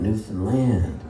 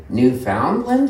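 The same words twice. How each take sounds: First: Newfoundland said newfun-LAND, rhyming with understand; Newfoundland with land stressed like understand; local Newfoundland. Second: Newfoundland said new-FOUND-land, stressing found; mock tourist saying Newfoundland like found; tourist's wrong Newfoundland said as found-land. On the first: Shown as a demonstration. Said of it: "it rhymes with understand". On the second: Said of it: "No, it rhymes with understand".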